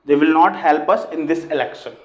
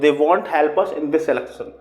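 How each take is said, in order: First: The words 'will not' are said in full. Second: The words 'will not' are contracted to 'won't'.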